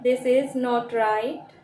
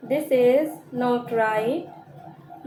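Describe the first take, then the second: First: Said in the usual way. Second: This is not right, drawn out slowly word by word; slow it right down for learners; slow repeat. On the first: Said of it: "teacher repeats the sentence". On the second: Shown as a demonstration. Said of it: "teacher repeats the sentence slowly". (धीरे-धीरे दोहराना)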